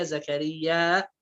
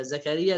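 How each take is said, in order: First: Slow long final aa in زكرياء; hamza added to زكرياء. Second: زكريا with plain open ending; no hamza in زكريا. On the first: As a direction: stretch the end of زكرياء toward hamza. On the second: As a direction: say زكريا briefly, without final stop. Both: Shown as a demonstration. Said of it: "يضيف همزة".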